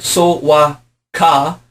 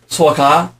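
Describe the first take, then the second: First: Each syllable is said separately and slowly. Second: The syllables are run together quickly. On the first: "it is written So-wa-ka" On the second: "we say quickly"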